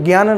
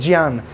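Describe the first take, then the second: First: The word begins with a plain 'gy' sound. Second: The word begins with a 'j' plus 'ny' sound. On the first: The speaker calls it wrong. "ज्ञान नहीं" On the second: The speaker calls it right. "जा plus इया से मिलकर बनता है। तो बोलेंगे भी ऐसे"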